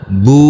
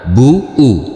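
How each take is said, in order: First: The vowel is held long in one smooth sound. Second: The vowel is split into two separate parts. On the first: The speaker calls it right. "dibaca panjang dengan panjang dua harokat" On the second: The speaker calls it wrong. "bukan bu u"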